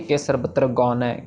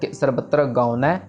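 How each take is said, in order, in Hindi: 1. पहला स्वर जुड़ी हुई 'au' ध्वनि है। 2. पहला स्वर अलग 'u' ध्वनि है। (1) "ऐसे नहीं कहना" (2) "इसको हमने कहना है"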